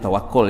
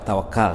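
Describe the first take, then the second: First: The last syllable has a 'u' vowel. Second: The last syllable has an 'a' vowel. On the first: This is the original form of the word. The speaker calls it right. "sebenarnya tawakul ya" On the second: This is the common local way of saying it. The speaker calls it wrong. "Yang orang orang Melayu cakap tawakal"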